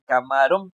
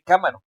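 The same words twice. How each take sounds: First: "camarón" with the weight on RÓN; stress on last syllable. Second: "cámaro" wrongly stressed on CÁ; stress on first syllable. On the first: Teacher giving the word she means, stress on RÓN. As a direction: land firmly on the final syllable of "camarón". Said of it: "yo quiero decir camarón". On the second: Teacher rejecting the misaccented reading, stress on CÁ. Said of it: "yo no quiero decir cámaro". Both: Shown as a demonstration.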